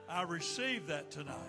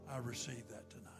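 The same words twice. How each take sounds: First: It is said at normal loudness. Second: It is said in a soft voice.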